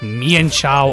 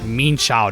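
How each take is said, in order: First: The first part is two syllables, like 'mee-an'. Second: The first part is one syllable, like 'mean'. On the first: The speaker calls it wrong. "not Mian Chow or Mian Fu, as people like to call it" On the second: The speaker calls it right. "its actual pronunciation is Mean Chow"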